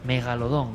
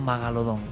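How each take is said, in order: First: The first vowel is an 'e' sound. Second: The first vowel is an 'a' sound. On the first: The speaker calls it right. "Megalodón, no Magalodón" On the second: The speaker calls it wrong. "no Magalodón"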